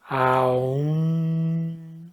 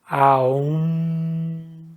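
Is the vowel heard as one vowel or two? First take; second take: two; two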